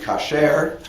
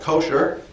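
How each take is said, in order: First: The stress is on the last syllable. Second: The stress is on the first syllable. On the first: This is the biblical Hebrew form. "But in biblical Hebrew, the word would be kasher"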